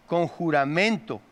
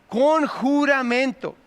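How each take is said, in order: First: Said in the usual way. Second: "Con juramento" said higher and drawn out slowly, each syllable weighed; emphatic slow repeat. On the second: Shown as a demonstration. Preacher stressing the oath to the congregation, slow emphatic repeat. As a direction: lean on "Con juramento" slowly to drive it home. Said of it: "Hermano, ¿sabe lo que era eso?".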